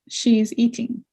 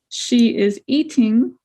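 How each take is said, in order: First: She and is merge into one syllable. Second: Both words she and is are said separately.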